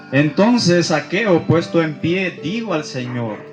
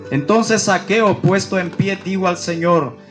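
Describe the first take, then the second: The two takes are said the same way.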